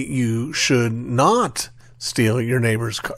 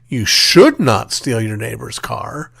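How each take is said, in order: First: The word "steal" carries the stress. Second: The word "should" carries the stress. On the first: Other harm to the car may be allowed. "the implication is, but you can, you know, smash it up with a sledgehammer" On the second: The listener might steal it anyway. "we are implicitly suggesting that you might do it anyway"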